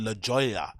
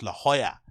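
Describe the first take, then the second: First: Jolla begins with a hard English J sound. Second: Jolla begins without a hard J sound. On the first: The speaker calls it wrong. "I called it La Joya" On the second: The speaker calls it right. "but it's actually pronounced La Jolla"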